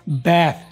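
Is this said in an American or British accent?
American. It is said with an American accent. "लिटा के बोलें तो ये अमेरिकन है"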